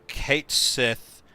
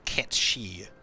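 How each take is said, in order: First: It is said as two words, 'Kate Sith'. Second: It is said as one word, 'Ketshi'. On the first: This is the official pronunciation used in English. "the official pronunciation that that Square uses" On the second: This is the Gaelic pronunciation, also used in Japanese. "the Gaelic pronunciation"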